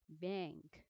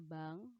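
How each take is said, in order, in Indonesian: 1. Kata ini diucapkan dengan cara Inggris. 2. Kata ini diucapkan dengan cara Indonesia. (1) "kalau pakai bahasa Inggris, pronunciation-nya yang benar adalah bank" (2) "Kalau bahasa Indonesia bank"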